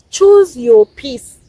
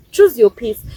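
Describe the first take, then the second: First: "Choose your peace" drawn out slowly, each word leaned on; slow right down on "Choose your peace"; slow emphatic advice. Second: Said in the usual way. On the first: Real, not acted. Telling viewers to choose their peace, slow and weighty. Repeated advice, first take slowed.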